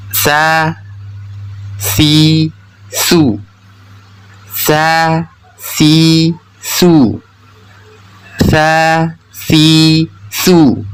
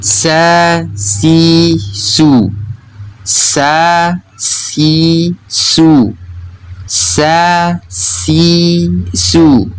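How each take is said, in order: First: Sa, si, su with TH as in "thin"; drawn-out demo of Arabic tha in "Sa, si, su"; tongue-tip-bitten tsa. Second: Drawn-out demo of Arabic sin in "Sa, si, su"; sharp plain S in "Sa, si, su"; sin pronunciation. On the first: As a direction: lisp the S in "Sa, si, su", tongue between teeth. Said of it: "menggigit sedikit ujung lidahnya". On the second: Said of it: "ujung lidah yang menempel pada gigi seri bawah". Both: Shown as a demonstration.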